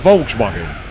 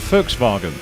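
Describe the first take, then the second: First: It is pronounced the English way. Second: It is pronounced the German way. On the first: "you mean it's a Volkswagen?" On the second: "Because it's German"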